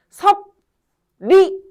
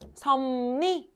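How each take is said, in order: First: The middle consonants are said as spelled. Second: The middle consonants blend into similar sounds. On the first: The speaker calls it wrong. "섭리 이렇게 발음하는 사람 없어요" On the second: The speaker calls it right. "뭐라고 발음해야 될까요?"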